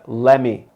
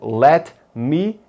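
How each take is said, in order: First: The words are blended into one reduced word. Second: Both words are said fully and separately.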